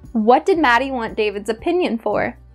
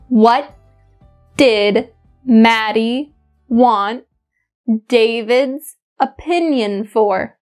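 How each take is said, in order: First: It is spoken at a normal conversational speed. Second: It is spoken at a much slower speed. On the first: "once at my normal speed" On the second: "once at a much slower speed"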